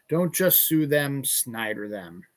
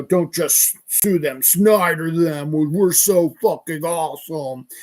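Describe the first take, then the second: First: Said in the usual way. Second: Lightly mocked tough guy, slow and louder; mock tough-guy boasting; Snyder. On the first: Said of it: "the Snyder Law Firm". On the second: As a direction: push out the slogan like a self-styled tough guy. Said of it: "he's got this tough guy voice".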